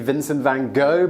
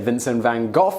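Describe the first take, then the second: First: The name has the American pronunciation. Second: The name has the British pronunciation. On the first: "Americans out there will say ... should be Vincent van Gogh" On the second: "in Britain we say Vincent van Gogh"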